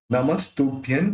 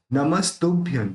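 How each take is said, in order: First: नमस्तुभ्यं again, lighter, ending in m with a rise; नमस्तुभ्यं with a gentle m ending; anusvara as m, repeated. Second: नमस्तुभ्यं with the final nasal closed as a clear m; नमस्तुभ्यं ending firmly in m; anusvara as m. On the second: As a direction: end नमस्तुभ्यं on lips-closed m, falling. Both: Shown as a demonstration. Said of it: "इसका उच्चारण म के रूप में होगा".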